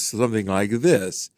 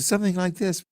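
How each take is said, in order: First: The voice sounds full and naturally resonant. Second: The voice sounds thin, without natural resonance.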